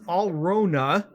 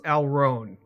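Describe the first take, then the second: First: The name ends with a final vowel sound. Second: The name ends with a final n sound. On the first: This is the original German pronunciation. "in actual true German, it's Alrona" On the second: This is the common English pronunciation. "in the common English version it's Alron"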